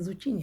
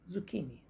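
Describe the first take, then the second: First: The middle consonant is a 'ch' sound. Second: The middle consonant is a 'k' sound. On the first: The speaker calls it wrong. "जबकि वो ज़ुचीनी नहीं होता है" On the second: The speaker calls it right. "इसको पढ़ते हैं ज़ुकीनी"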